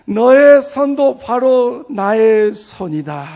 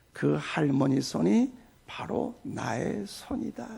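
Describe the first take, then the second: First: Loud, slow divine proclamation; Lord's voice. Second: Soft, slow, low divine voice; Lord's voice. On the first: The Lord claims the pastor's hand, loud slow proclamation. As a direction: proclaim it firmly as the Lord, higher. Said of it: "그 주님의 음성을 듣고". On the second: The Lord speaks to the pastor, soft slow low voice. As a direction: speak gently and slowly as the Lord. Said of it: "주님의 음성이 들립니다". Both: Retold or imitated.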